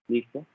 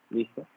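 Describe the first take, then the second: Both takes have the same delivery.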